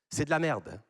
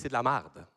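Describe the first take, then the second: First: The vowel in 'merde' sounds like 'mère'. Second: The vowel in 'merde' sounds like 'mar'. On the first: This is how people in France say it. "C'est quoi le mot ici, vous dites?" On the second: This is how people in Quebec say it. "Nous, au Québec, on dit"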